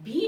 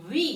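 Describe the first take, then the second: First: "ভি" with a Bengali bh sound; wrong V sound. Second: "ভি" with an English v; teacher's careful English V in "ভি"; correct V sound. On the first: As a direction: demonstrate the mistaken bh in "ভি". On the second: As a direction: model "ভি" as vee, not bhee. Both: Shown as a demonstration. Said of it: "এটা ভি না".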